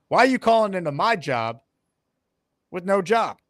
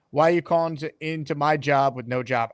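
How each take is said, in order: First: Punchy, with a long pause before "with no job"; louder, staged comeback with a beat before the tag; delivered as a zinger. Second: Said in the usual way. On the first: Acted. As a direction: land "with no job" as a separate punchline. Redelivers the line as a zinger.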